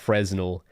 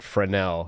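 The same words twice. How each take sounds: First: The word is pronounced in a plain way. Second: The word is pronounced in a fancier way. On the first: The speaker calls it wrong. "not Fresnel" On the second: The speaker calls it right. "it sounds fancier when I pronounce it like that"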